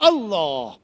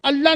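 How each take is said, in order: First: The L sound is heavy and full. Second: The L sound is light and thin. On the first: The speaker calls it right. "पुर पढ़ा जाता है मुफखम" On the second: The speaker calls it wrong. "अल्लाह नहीं"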